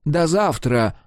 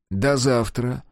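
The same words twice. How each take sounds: First: Mild angry "до завтра" as a threat. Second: Curt, dry farewell; understated dry goodbye. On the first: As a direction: spit out "до завтра" in anger. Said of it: "гневно добавил". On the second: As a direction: cut it short, no feeling. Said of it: "сухо сказал Генрих". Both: A narrator's reading.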